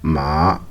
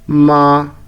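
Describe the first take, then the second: First: The pitch rises from middle to high. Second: The pitch stays high and level. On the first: "une montée de la voix, comme une question" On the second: "une voix stable comme un chant monotone"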